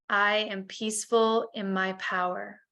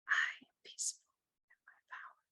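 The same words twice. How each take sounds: First: It is spoken aloud in a normal voice. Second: It is whispered without a full voice.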